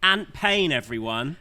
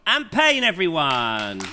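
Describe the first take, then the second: First: It is said in his normal voice. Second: It is said in a Gonzo-style voice.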